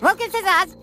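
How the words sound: It is said in a thin, weak voice.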